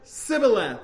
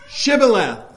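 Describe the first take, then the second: First: The word begins with an 's' sound. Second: The word begins with an 'sh' sound. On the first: The speaker calls it wrong. "they said it more as Sibboleth, like they couldn't pronounce the SH" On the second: The speaker calls it right. "the Ephraimites could not pronounce Shibboleth"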